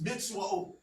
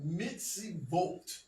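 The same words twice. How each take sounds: First: "mitzvahot" as mits-WOHT, with a W; ancient Hebrew pronunciation. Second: "mitzvot" slowly, as mits-ee-VOHT; later Hebrew V sound. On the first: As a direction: say "mitzvahot" with W in place of V. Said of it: "that's how you would say it". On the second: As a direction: say "mitzvot" drawn out with a clear V. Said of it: "introduction of the V sound". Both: Shown as a demonstration.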